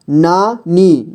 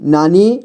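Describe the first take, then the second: First: नानी slowly as ना, pause, नी; syllable by syllable. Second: Said in the usual way. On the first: Shown as a demonstration. Teacher showing beginners how to read नानी, syllable by syllable. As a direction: break नानी into two long syllables. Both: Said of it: "जोड़ जोड़ करके ही पढ़ना होगा".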